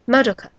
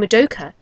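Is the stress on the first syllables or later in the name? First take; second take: first; later. First: The stress is on the first syllables. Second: The stress is not on the first syllables. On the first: This is the Japanese way of saying the name. The speaker calls it right. "you put the stress on the first couple of syllables of a name" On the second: This is the English way of saying the name. The speaker calls it wrong. "instead of saying Madoka"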